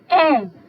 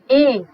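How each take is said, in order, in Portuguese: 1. Uma vogal média-baixa anterior, com a língua mais baixa. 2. Uma vogal média-alta anterior, com a língua mais alta. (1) "vogal oral média baixa anterior não arredondada" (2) "vogal oral média alta anterior não arredondada"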